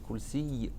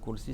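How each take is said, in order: First: The final y sound is doubled and held. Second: The final y sound is short and single. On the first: The speaker calls it right. "c'est kursi avec une shadda sur le ya" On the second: The speaker calls it wrong. "c'est pas kursi"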